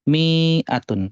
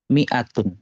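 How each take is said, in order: First: The first vowel is held long. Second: The first vowel is kept short. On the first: The speaker calls it wrong. "Kenapa mi-nya dibaca panjang?" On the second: The speaker calls it right. "Jadi ini dibacanya pendek"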